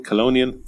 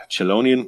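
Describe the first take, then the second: First: "Chelonian" starting with a K sound; hard K pronunciation. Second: "Chelonian" starting with a SH sound. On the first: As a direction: say "Chelonian" as kuh-LOH-nee-an. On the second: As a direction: say "Chelonian" as shuh-LOH-nee-an. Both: Real, not acted. Tries two readings of unfamiliar word.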